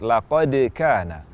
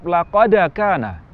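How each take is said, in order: First: The echo after the d has no vowel colour. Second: The echo after the d sounds like 'a'. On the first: The speaker calls it right. "Yang tepat" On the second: The speaker calls it wrong. "Qalqalah huruf dal seolah-olah berharakat fathah atau cenderung ke harakat fathah"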